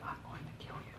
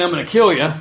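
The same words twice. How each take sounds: First: A hushed, breathy whispered threat. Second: Louder, blunt spoken threat. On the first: Drill instructor whispering to a recruit, a menacing whisper. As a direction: whisper it close, letting the quiet menace. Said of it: "he whispered it". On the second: Drill instructor threatening a recruit, spoken loud and blunt. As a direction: say it straight out as a threat. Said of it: "but it wasn't so direct". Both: Retold or imitated.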